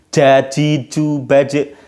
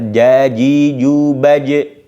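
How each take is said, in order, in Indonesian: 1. Konsonan ini dibuat dengan ujung lidah. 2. Konsonan ini dibuat dengan tengah lidah. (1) "kalau pakai ujung lidah jadinya j" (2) "Ini dari tengah lidah"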